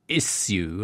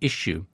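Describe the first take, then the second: First: The middle sounds like 's' followed by 'y'. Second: The middle sounds like 'sh', like a sneeze. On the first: American colleagues object to this pronunciation. "my American colleagues constantly berating me for saying issue" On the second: American colleagues expect this pronunciation. "and I have to say issue"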